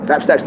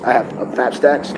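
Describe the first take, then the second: First: Said in the usual way. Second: Fap Stacks drawn out slowly, Stacks rising; savoring the name Fap Stacks; slow brand name. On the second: Shown as a demonstration.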